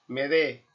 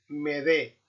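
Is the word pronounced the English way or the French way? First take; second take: French; French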